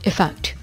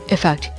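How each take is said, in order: The two takes are said the same way.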